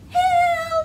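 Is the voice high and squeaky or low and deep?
high squeaky. It is said in a high, squeaky mouse voice.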